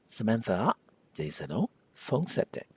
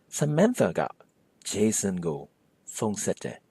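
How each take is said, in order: First: The marker after Jason is reduced to o. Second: The marker after Jason is a full go.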